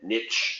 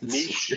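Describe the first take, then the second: First: It is said the American way. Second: It is said the European way.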